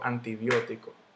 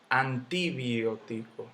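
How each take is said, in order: First: The stress falls on the third-to-last syllable. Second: The stress falls on another syllable. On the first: The speaker calls it right. "yo digo antibiótico" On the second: The speaker calls it wrong. "Yo no digo antibiótico, nada de eso"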